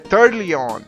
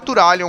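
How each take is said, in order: First: The name is said with an English-speaker pronunciation. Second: The name is said with a Brazilian Portuguese pronunciation. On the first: This is how foreigners say it. "eu já vi gringo pronunciando é" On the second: This is the form the speaker will use. "Então eu vou falar Turalyon mesmo"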